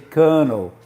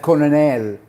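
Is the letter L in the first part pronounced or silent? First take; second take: silent; pronounced. First: The first L is silent, sounding like kernel. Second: The first L is pronounced as written. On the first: The speaker calls it right. "You don't pronounce the first L" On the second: The speaker calls it wrong. "so they read the whole word"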